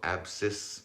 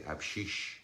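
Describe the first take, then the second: First: The word ends with a plain s sound. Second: The word ends with an sh sound. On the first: This is the local dialect's form. "we say it like that over here" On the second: This is the eastern dialect's form. "over in the east they say abshish"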